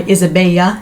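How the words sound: The name is said with a Spanish pronunciation.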